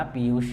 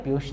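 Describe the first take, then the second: First: पीयूष as "piyush" with a clear y glide; careful correct पीयूष; correct pronunciation. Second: पीयूष said as "piush" without the y glide; wrong pronunciation. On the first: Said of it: "पीयूष ऐसे बोलना है". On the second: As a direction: model the mistaken पीयूष. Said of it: "पीयूष नहीं बोलना". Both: Shown as a demonstration.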